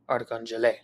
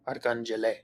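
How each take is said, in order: First: The stress is on the fourth syllable. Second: The same.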